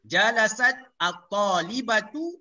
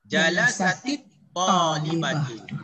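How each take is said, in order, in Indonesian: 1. Kedua-dua perkataan ini dipisahkan tanpa vokal penghubung. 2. Vokal 'i' menghubungkan kedua-dua perkataan ini.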